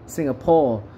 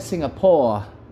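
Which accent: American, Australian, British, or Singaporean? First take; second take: British; Australian. First: It is said in a British English accent. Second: It is said in an Australian English accent. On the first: "Kalau British English Singapore" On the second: "kalau kalau Australia"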